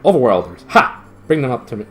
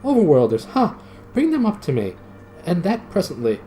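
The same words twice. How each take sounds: First: Loud commanding shout. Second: Shouted. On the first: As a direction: bark the order down the stairs. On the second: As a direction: fling the command down, higher. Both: Acted. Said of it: "it shouted".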